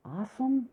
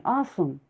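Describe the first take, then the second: First: High, soft puzzled "Asim?"; puzzled question. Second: Said in the usual way. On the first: A narrator's reading. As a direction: ask "Asim?" as if the name means nothing. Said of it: "Asim who?". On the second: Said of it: "Oh, now I remember".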